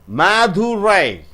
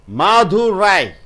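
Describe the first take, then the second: The two takes are said the same way.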